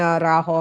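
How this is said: The name is said with a Spanish pronunciation. "but in Spanish"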